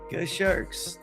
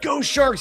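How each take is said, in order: First: It is said flatly with no enthusiasm. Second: It is said with lively enthusiasm. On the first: "how unexcited he was, the lack of enthusiasm" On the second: "He wasn't saying like"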